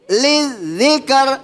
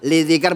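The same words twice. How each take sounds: First: The doubled consonant is pushed and drawn out strongly. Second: The doubled consonant is read plainly, without extra push. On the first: The speaker calls it right. "zalnya di agak di apa uh, tarik" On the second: The speaker calls it wrong. "Yang tadinya biasa saja bacanya"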